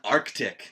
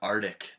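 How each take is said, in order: First: The middle c sound is clearly pronounced. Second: The middle c sound is left out. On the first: The speaker calls it right. "There's a C in there" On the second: The speaker calls it wrong. "not Arctic"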